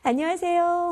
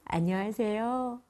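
First: It is said in a cheerful, happy mood. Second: It is said in a plain, neutral mood.

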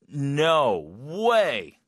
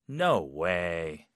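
First: It sounds shocked. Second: It sounds disbelieving.

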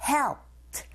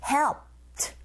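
No difference in how they are said.

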